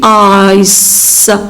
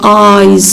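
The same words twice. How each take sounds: First: The final s is a hissing s. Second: The final s is voiced like z. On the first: The speaker calls it wrong. "we don't say eyes" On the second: The speaker calls it right. "the final S is pronounced as Z"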